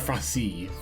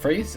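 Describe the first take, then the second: First: The name does not sound like English 'phrase'. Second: The name sounds like the English word 'phrase'.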